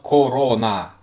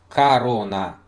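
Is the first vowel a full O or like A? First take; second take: full O; like A. First: The first vowel is a full O sound. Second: The first vowel sounds like an A. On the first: The speaker calls it wrong. "not corona, like it's literally spelled" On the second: The speaker calls it right. "It's corona. ... we pronounce it like corona"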